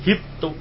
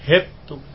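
First: The first vowel is a pure i. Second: The first vowel leans toward e.

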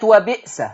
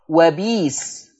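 First: A glottal stop is heard in the middle. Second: A long i replaces the glottal stop.

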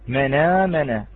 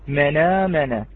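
Both takes have the same delivery.

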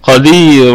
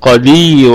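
No difference in how they are said.

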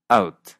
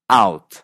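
First: It is said with a Canadian accent. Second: It is said with a standard American accent.

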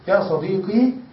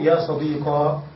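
First: The word ends with a long 'ee' sound. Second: The word ends with a long 'aa' sound.

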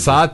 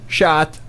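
First: The word begins with a plain s sound. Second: The word begins with an sh sound. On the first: "normalde S ile telaffuz edilen" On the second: "şeyle telaffuz edildiğinde çok sempatik olacak"

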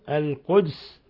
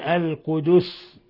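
First: The d has no vowel after it. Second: The d is followed by a u vowel. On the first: "بإسكان الدال" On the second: "كما قرأ بذلك حفص"

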